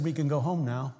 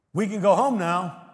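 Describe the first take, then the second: First: Said in the usual way. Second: Raised, higher, louder insistence; louder repeat. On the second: Acted. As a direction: lift it up with feeling.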